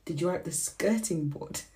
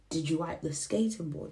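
First: "skirting" said with the er sound, sker-ting; "skirting board" with a clear sker-ting; "skirting" pronounced sker-ting, the proper word; corrected word. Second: "skating" said like skate, with the long a of skay-ting; "skating board" with skay-ting instead of skirting; the accented "skating", skay-ting; accent slip. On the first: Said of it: "The skirt, skating board". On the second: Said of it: "See, that's that Zoom coming out". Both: Shown as a demonstration.

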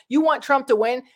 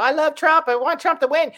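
First: Disbelieving question, rising at the end; incredulous. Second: Gushing fan voice, pitched higher and louder; mock Trump fan. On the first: Real, not acted. Vlogger firing the fan's words back, incredulous. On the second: Vlogger mocking Trump fans, gushing high and loud. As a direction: play the fan who can't get enough of Trump. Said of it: "Y'all talking about".

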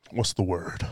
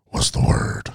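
First: Said in the usual way. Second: Whispered to himself, searching for the word; breathy self-prompt under his breath. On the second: Real, not acted. Host whispering to himself, hunting for a word.

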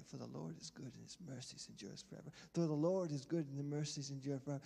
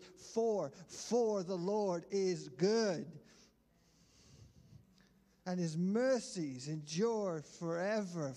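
First: Said in the usual way. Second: "For the Lord is good" said slow and loud, leaning hard on each word; emphasizing each word. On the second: Shown as a demonstration. Preacher showing the church how to stress each word, slow and loud. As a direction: hammer out every word of "For the Lord is good", slowly. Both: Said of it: "you can start emphasizing each word".

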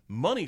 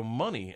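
First: "Money" higher, with a rising end; questioning tune. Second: "Money" at normal pitch, falling; falling tune. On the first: Storyteller replays translating for John, "Money" high and rising. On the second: Storyteller replays the realization, "Money" with a falling end. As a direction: let "Money" drop as it sinks in. Repeats the word as realization lands. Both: Retold or imitated.

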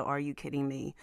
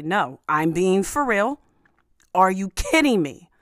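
First: Said in the usual way. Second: Louder, emphatic mock outrage; all caps rage. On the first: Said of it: "He, he put the". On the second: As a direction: act out an exasperated all-caps tweet. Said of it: "in all caps rage to just say".

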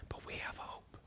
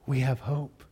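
First: Breathy whisper of hope. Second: Said in the usual way. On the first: Acted. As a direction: say it under the breath, reverently. Hushed pronouncement of hope.

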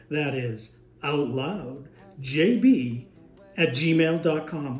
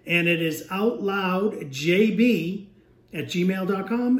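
First: Slow, deep, drawn-out announcer voice; fighting game announcer. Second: Said in the usual way. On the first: Shown as a demonstration. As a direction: stretch every syllable like a big arena announcer. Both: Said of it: "we'll go into announcer voice".

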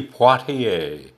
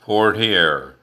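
First: "Poitier" said the French way, as pwah-tee-AY; French pronunciation. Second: "Portier" said the usual English way, as POR-tee-ay; anglicized "Portier", POR-tee-ay; English pronunciation. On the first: Podcast host gives the star's name in French pronunciation. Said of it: "how his last name is pronounced". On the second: Podcast host gives the routine English pronunciation of the name. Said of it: "as it is more routinely pronounced". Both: Shown as a demonstration.

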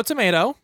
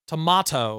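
First: "tomato" said tuh-MAY-toh; tomato, "ay" vowel. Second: "Tomato" said tuh-MAH-toh; tomato, "ah" vowel. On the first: Giving a movie rating to co-host, "tomato" as tuh-MAY-toh. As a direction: say "tomato" with a long "ay" in the middle. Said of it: "That was the A plus". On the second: Correcting the rating for co-host, "Tomato" as tuh-MAH-toh. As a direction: say "Tomato" with an open "ah" in the middle. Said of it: "No, wait. No, no, sorry". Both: Shown as a demonstration.

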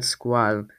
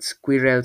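First: "squall" in one syllable, rhyming with "wall"; alternative pronunciation. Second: "squirrel" as "skwi-rel", both syllables full; alternative pronunciation. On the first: Reader offers versions, "squall" said as one syllable. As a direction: run squirrel together into "squall". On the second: Reader offers versions, "squirrel" said as "skwi-rel". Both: Shown as a demonstration. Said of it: "However you say it".

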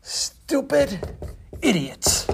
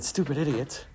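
First: Slow, spaced-out insult, word by word; written in big words. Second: Said in the usual way. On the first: Acted. Angry visitor writing on the man's door, slow and emphatic. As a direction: spell out the insult slowly, pausing between words. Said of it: "he wrote in big words".

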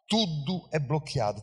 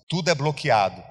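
First: "Tudo é bloqueado" said again, softer and falling; quiet echo. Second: Said in the usual way. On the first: Shown as a demonstration. Preacher letting the congregation feel it, quiet echo. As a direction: let "Tudo é bloqueado" sink in, softly. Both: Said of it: "repeats the phrase softer".

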